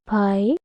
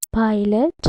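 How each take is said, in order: First: PILOT split into two beats, pi - lot; syllable by syllable. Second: Said in the usual way. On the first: Shown as a demonstration. Teacher giving a two-syllable example, syllable by syllable. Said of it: "Two syllables". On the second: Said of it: "I have given more examples like that".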